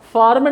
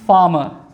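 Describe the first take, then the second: First: The r sound after the vowel is pronounced. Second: The r sound after the vowel is silent. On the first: The speaker calls it wrong. "फार्मर नहीं पढ़ते हैं" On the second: The speaker calls it right. "ये भी silent है, इसको पढ़ते हैं फार्मर"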